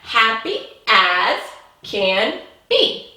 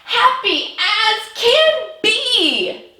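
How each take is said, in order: First: It is read in a plain, calm tone. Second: It is said in an excited tone.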